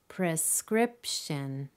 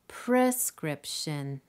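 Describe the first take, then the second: First: The stress is on the second syllable. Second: The stress is on the first syllable. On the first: The speaker calls it right. "Clearly, it's the second" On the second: The speaker calls it wrong. "Say the word with all the possible stress combinations"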